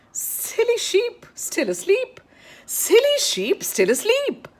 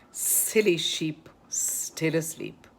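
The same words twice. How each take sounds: First: Very high, increasingly loud "Silly sheep, still asleep"; high-pitched repetition. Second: Slow, measured "Silly sheep, still asleep"; slow articulation. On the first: Repeats twister building in intensity. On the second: First, slow take of twister. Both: Shown as a demonstration.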